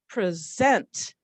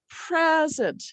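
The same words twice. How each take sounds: First: The stress is on the second syllable. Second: The stress is on the first syllable. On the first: It is a verb, to show or give. "as a verb... I stress this one. I'm punching this one" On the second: It is a noun, a gift. "the unstressed syllable, we call it a schwa"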